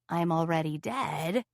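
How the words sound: It is said in a put-on monster voice.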